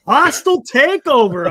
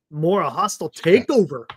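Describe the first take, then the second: First: "Hostile takeover" repeated louder, savoured; relishing repeat. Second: Said in the usual way. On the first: Real, not acted. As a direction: punch "Hostile takeover" with glee.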